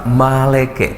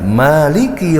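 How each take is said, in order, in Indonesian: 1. Kata ini diucapkan dengan vokal e sebagai gantinya. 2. Kata ini diucapkan dengan vokal i yang jelas. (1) "Bunyinya apa? Maleke" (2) "ketika mengucapkan Maliki Yaumiddin itu tidak bisa"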